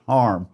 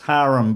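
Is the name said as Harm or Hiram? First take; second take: Harm; Hiram. First: The name is said in a short form, Harm. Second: The name is said in its full form, Hiram. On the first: This is how his family said the name. "his family called pronounced it Harm" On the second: This is the name's usual form. "It's Hiram"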